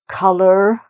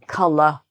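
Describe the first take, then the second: First: It ends with a clearly sounded R. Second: It ends in an uh vowel, no R sound. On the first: "you would hear more R sound" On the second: "uh, uh, uh, at the end"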